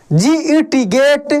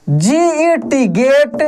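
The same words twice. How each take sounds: First: Said in the usual way. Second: Teacher spelling G E T slowly; slow spelling demo. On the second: Shown as a demonstration. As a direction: slowly spell out each letter, rising on ई. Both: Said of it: "देख रहे हैं ना?".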